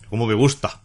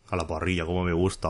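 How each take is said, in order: First: Plain own exclamation of delight; just enjoying the tea, in his own voice. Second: Quieter, lightly voiced meme quote; a hint of la humana, said much softer; imitating la humana. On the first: Real, not acted. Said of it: "diría la humana". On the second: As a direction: softly mimic the human saying she loves it. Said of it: "oh, diría la humana".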